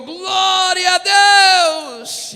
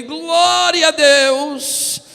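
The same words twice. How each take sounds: First: Much higher, loud praise shout; church shout. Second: Very slow, higher, loud stretched praise; drawn-out praise shout. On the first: Worshipper beside him shouting praise, loud. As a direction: yell it out in praise. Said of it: "Alguém do meu lado gritou". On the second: Joining the crowd with a stretched loud praise. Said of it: "E eu levantei". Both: Retold or imitated.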